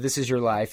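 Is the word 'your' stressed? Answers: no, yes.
no. The word your is not stressed. The title is about someone else's life. "Instead of This Is Your Life and being a story about Jackie"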